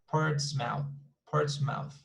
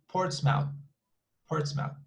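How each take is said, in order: No difference in how they are said.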